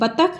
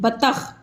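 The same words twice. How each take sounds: First: The final consonant is an aspirated stop. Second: The final consonant is a fricative. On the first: The speaker calls it wrong. "नहीं" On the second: The speaker calls it right. "जब इस पे एक बिंदी हो जाती है"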